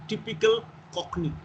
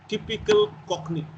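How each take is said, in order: Both takes have the same delivery.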